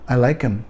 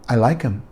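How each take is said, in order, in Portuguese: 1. O h em him desaparece, as palavras se juntam. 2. O h em him desaparece, as palavras se juntam.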